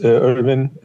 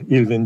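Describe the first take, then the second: First: The name is said with English pronunciation. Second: The name is said with Turkish pronunciation.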